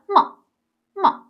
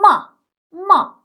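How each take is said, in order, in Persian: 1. هجای دوم کوتاهه و قطع میشه. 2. هجای دوم کامل و کشیده ادا میشه. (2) "این پینین آبی رنگ گفتم ما ما"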